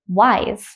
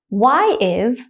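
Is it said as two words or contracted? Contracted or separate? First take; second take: contracted; separate. First: The two words are joined into one syllable. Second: The two words are said fully and separately.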